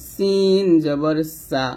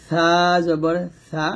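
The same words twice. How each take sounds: First: Sharp hissing s in সিন, drawn out; hissed sin. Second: Slow সা, tongue tip at upper teeth. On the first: Teacher contrasting sin with sa, hissed sin. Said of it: "আর এটা হবে". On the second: Teacher contrasting sa with sin, tongue-tip sa. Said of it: "তাহলে এটা হবে". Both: Shown as a demonstration.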